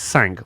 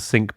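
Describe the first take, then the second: First: The word is said with a French-like 'sank' vowel. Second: The word is said like the English word 'sink'. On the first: The speaker calls it wrong. "It looks like it's sank French for five, but it's not" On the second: The speaker calls it right. "That's how it's said"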